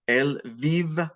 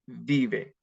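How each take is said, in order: First: Él vive with the final e detached; stem, then ending. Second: Said in the usual way. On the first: Shown as a demonstration. Teacher adding the ending to the stem, in parts. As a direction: pause before the last sound of vive. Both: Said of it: "It's vive".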